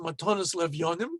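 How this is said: It is said in an Ashkenazi Hebrew pronunciation.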